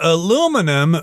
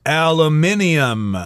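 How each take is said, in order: First: It is the American four-syllable pronunciation. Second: It is the British five-syllable pronunciation.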